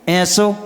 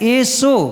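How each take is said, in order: First: The first vowel is an 'ai' sound. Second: The first vowel is a plain 'e' sound. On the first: The speaker calls it wrong. "अपन क्या बोलते हैं? ... अशुद्ध हो गया" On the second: The speaker calls it right. "जबकि लिखा क्या है?"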